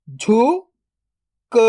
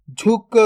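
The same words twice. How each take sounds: First: "झुक" split into झु, then क, very slow; drawn-out breakdown of "झुक"; sound by sound. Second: Said in the usual way. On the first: Shown as a demonstration. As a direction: sound out झु ... क with a long gap. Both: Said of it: "तो मिलके बन जाएगा".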